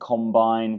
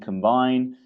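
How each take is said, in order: First: The stress is on the first syllable. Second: The stress is on the second syllable. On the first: It names a harvesting machine. "harvesting machine" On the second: It means to become one or unite. "to become one, unite"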